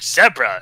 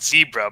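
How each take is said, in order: First: It is said the British way. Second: It is said the American way. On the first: "in the U K or so they call it zebra" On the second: "in the U S we all like, we always call it zebra"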